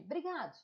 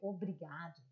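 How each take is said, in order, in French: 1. Le mot est raccourci, sa première syllabe est supprimée. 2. Le mot est dit en entier, avec sa première syllabe. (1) "c'est bien plus agréable" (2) "c'est très fort quand tu dis obrigado"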